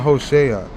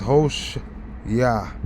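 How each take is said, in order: First: The ending is not a separate 'yah' syllable. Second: The name ends in a separate 'yah' syllable. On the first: The speaker calls it wrong. "they're saying Hoshea. It's not Hoshea" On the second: The speaker calls it right. "It's Hosh, Yah"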